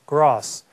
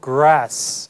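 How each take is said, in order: First: It is said with a British accent. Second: It is said with an American accent. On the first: "영국식 발음으로 grass" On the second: "grass 아니고"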